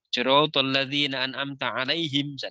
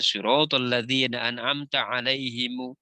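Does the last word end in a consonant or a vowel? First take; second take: consonant; vowel. First: The final m is closed with no vowel. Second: The final m is followed by a u vowel. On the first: "Maka tidak" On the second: "daerah tertentu yang membaca mim mati itu dibaca doma"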